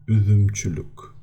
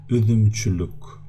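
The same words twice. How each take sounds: The two takes are said the same way.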